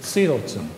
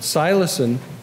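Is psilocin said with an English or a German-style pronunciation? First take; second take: German; English. First: It is said with a German-style pronunciation. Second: It is said with a plain English pronunciation.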